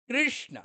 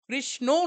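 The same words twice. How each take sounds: First: The word ends without any added vowel. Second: The word ends with an added 'o' vowel. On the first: The speaker calls it right. "ওকার নেই" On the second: The speaker calls it wrong. "কৃষ্ণ নয়"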